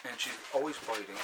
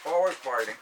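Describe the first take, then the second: First: Said in the usual way. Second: Always said louder, leaning on the word always; stress on always. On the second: Shown as a demonstration. Repeating to viewers that the puppy bites, stressed always. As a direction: push the word always to make the point.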